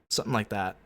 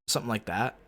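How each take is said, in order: Both takes have the same delivery.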